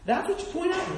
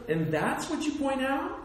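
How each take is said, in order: First: Much higher, outraged mock disbelief; high incredulous repeat. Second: A questioning lift of mock surprise; rising disbelief. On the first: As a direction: throw it up high in comic outrage. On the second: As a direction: ask it as if you can't believe it. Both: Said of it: "I'm like".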